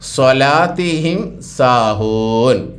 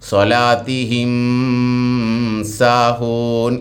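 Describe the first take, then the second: First: The m is pronounced clearly before the s. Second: The m is not pronounced clearly before the s. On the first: The speaker calls it right. "ഇൽഹാർ ചെയ്യണം" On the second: The speaker calls it wrong. "എന്നോതൂല"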